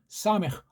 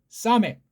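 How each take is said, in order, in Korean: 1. h 숨소리로 끝나요. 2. k 파열음으로 끝나요. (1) "걔네식으로" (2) "조금 정확하게 낸 거예요"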